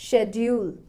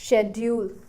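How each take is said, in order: No difference in how they are said.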